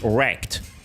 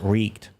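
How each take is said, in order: First: The vowel sounds like the one in wreck. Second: The vowel sounds like the one in reek. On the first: The speaker calls it wrong. "it's not supposed to be wrecked" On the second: The speaker calls it right. "pronounced Reeked"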